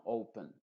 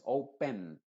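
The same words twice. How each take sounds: First: "open" con la E final reducida, casi "oupn"; schwa. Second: "open" como "ou-pen", con E plena; E clara. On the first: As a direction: di "open" relajando la segunda sílaba. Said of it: "sino con una schwa". ("open" con schwa final) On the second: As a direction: di "open" lento, marcando "pen". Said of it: "No es open". ("open" sin schwa) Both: Shown as a demonstration.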